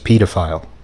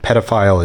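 First: The word is said in a British-sounding way. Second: The word is said in an ordinary, non-British way.

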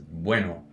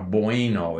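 First: The e sound is short and clipped. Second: The e sound is drawn out and glided. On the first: The speaker calls it right. "cut that e. ... it's a bueno" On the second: The speaker calls it wrong. "It's not a bueno"

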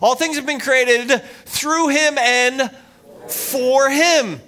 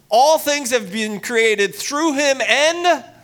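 First: It is read forcefully, with strong conviction. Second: It is read plainly, without special conviction.

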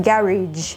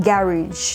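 The two takes are said the same way.

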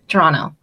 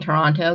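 First: The second t sound is dropped. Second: The second t sound is clearly pronounced. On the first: The speaker calls it right. "You don't pronounce the T" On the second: The speaker calls it wrong. "I know that I'm doing it wrong"

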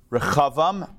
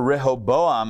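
First: It has a throaty guttural sound in the middle. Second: It has a plain h sound in the middle. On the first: "Rehoboam in the Hebrew also gets to clear. You get to clear the throat" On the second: "I think, in the English"

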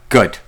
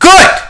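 First: It is said quietly. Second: It is said loudly.

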